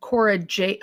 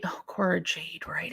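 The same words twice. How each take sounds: First: Said in the usual way. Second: Soft whisper, to herself; whispered recall. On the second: Real, not acted. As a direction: breathe the name as it comes back to you. Quietly recalling a forgotten name.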